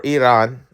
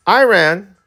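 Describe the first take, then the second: First: "Iran" said ee-RAHN; alternative pronunciation. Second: "Iran" said eye-RAN; American pronunciation. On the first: Correcting the name for viewers, ee-RAHN. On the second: Introducing a news topic, American eye-RAN. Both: Shown as a demonstration. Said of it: "I think they go Iran".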